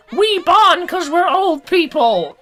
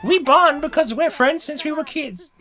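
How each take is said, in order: First: Put-on high, slow old-timer voice; old person voice. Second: High, lightly voiced sincere friend. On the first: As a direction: quaver it like an old lady. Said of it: "they're just like". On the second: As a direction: say it like a sweet old friend. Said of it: "It's like".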